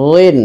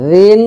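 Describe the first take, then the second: First: রিন as heavy "dhwin"; full emphatic dh in রিন; thick heavy DH. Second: রিন as soft "dhin"; light, thin dh in রিন; soft voiced TH. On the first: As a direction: thicken the voiced th starting রিন. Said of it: "মোটা করে". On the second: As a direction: start রিন on th as in "this", high and loud. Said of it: "নরম করে". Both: Shown as a demonstration.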